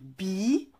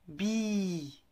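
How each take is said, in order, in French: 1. La voyelle est brève. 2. La voyelle est longue.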